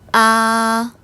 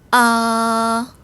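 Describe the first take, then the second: First: The pitch stays high, long and level. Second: The same.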